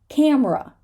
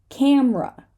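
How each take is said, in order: The two takes are said the same way.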